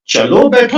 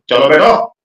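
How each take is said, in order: First: It is said in a gentle, polite tone. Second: It is said in a harsh, commanding tone.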